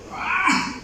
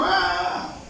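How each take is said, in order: First: Sharp "¡Ah!" jumping far higher in pitch; startled scream. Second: Said in the usual way. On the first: Shown as a demonstration. Preacher shows the cry on meeting a snake, high startled yelp. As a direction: yelp "¡Ah!" as if a snake just appeared. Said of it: "¿cómo usted diría?". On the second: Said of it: "Pegué y dijo".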